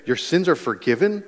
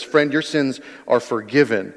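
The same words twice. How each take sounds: First: "Your sins are forgiven" lifted into a rising question; "forgiven" rising as if asking can that be; incredulous echo question. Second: Said in the usual way. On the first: Retold or imitated. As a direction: repeat "Your sins are forgiven" in disbelief, higher, ending up. Echoing it as the startled crowd would.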